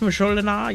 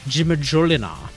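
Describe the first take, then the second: First: The J is sounded like a Y. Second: The J is sounded like an English J. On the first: "the Swedish Majolinar" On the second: "I like to pronounce it that way"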